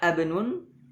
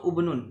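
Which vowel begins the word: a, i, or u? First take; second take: a; u. First: The word begins with an a vowel. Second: The word begins with a u vowel. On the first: "Tidak dibaca abnun" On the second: "atau ubnun, tidak"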